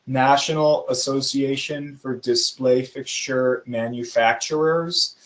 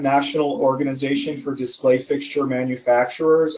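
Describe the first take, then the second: First: It is said slowly. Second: It is said fast.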